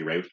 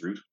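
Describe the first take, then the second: First: "route" rhyming with "out"; American "route". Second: "route" sounding like "root"; English "route". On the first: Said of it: "American Magic players say route". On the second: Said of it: "the English pronunciation is route". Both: Shown as a demonstration.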